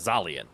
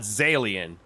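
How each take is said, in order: First: The name does not rhyme with alien. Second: The name rhymes with the word alien. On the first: The speaker calls it right. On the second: The speaker calls it wrong.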